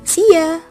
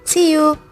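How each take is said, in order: First: The word 'you' is reduced to 'ya'. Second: The word 'you' is said in full. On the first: A slang, casual way to say goodbye. "kalau dalam bahasa slangnya" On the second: A standard way to say goodbye. "kalian hanya menjawab"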